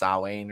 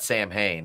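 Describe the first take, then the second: First: It is said like 'Sow-win'. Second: It is said like 'Sam Hain'. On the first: The speaker calls it right. "it's Sawane or something like that" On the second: The speaker calls it wrong. "It's not Sam Hain"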